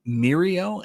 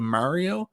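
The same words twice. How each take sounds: First: "Mirio" for Mario, first vowel like "meer"; Newfoundland pronunciation. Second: "Mario" with an open a in the first syllable; standard pronunciation. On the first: Newfoundlander showing the dialect, "Mirio" with a meer sound. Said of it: "I say M-, Mirio instead of Mario". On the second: Newfoundlander contrasting dialect, "Mario" said with a standard mar sound. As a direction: say "Mario" the common way, starting "mar". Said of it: "instead of Mario". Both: Shown as a demonstration.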